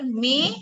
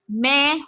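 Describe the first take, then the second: First: "mein" with a tight "ay" vowel; closed Hindi vowel. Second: "main" with a wide "eh" vowel; open Hindi vowel. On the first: Teacher giving a Hindi example for aigu, closed vowel. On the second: Teacher giving a Hindi example for grave, open vowel. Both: Shown as a demonstration. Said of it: "Like similar in Hindi".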